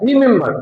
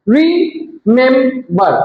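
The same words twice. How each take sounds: First: Said in the usual way. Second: রিমেম্বার slowly as RE, MEM, BAR; three spaced beats on রিমেম্বার; broken into syllables. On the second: Shown as a demonstration. Teacher shows three syllables to class, রিমেম্বার split slowly. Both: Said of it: "তিনবারে উচ্চারণ করতে হয়".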